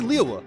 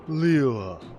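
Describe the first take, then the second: First: The word is said in a natural, casual way. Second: The word is said in a stiff, careful way. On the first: It is how the word should simply be said. The speaker calls it right. "Just say it naturally" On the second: It imitates a stilted voice-acted delivery. The speaker calls it wrong. "he would always be like"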